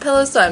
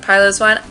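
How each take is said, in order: First: The first part sounds like the word pillow. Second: The first part does not sound like pillow. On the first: It is named after a fluffy pillow. "I like to pronounce it Piloswine because it's a fluffy pillow" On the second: Someone else says it this way. "Leo likes to pronounce it Piloswine"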